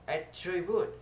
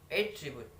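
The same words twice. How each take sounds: First: The stress is on the second syllable. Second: The stress is on the first syllable. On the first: It is used as a verb. "attribute in the seconds. The place uh, of test in the seconds place" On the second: It is used as a noun. "That is for the noun"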